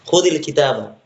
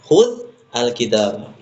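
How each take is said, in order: First: The words are joined with an i sound. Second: The words are separate with the article sounded. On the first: "ketika diwasal cara membacanya, maka dikasrahkan" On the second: "Aslinya adalah"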